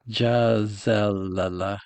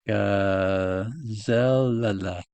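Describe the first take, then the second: First: It begins with a soft G sound. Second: It begins with a hard G sound.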